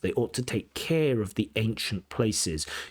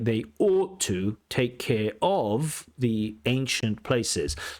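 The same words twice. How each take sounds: First: The stress falls on care, not of. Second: The stress falls on of, not care. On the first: The speaker calls it right. "the stress is on care and the something" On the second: The speaker calls it wrong. "So slightly odd uh, sentence uh, sentence stress"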